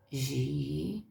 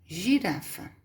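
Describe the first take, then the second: First: "girafa" split into gi, ra, fa with long pauses; softer, lower, separated syllables in "girafa". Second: Said in the usual way. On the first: Shown as a demonstration. Teacher splitting a word for pupils, syllable by syllable. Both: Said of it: "Se você separar as sílabas".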